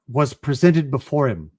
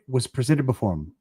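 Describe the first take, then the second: First: The last word gets clear weight. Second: The last word is mumbled and fades. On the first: The speaker calls it right. "Him probably will have some weight at the end of the line" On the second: The speaker calls it wrong. "It's going to mumble off on the end"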